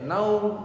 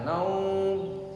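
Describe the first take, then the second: First: The vowel is held short. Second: The vowel is drawn out long. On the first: "ada yang baca pendek" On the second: "Ada yang baca panjang"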